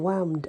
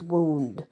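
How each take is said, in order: First: The vowel rhymes with the word 'bound'. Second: The vowel rhymes with the word 'moon'. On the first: This is the old pronunciation used for the rhyme. "they would change the sounding of words so that they rhymed" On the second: This is the ordinary modern pronunciation. "it means wound"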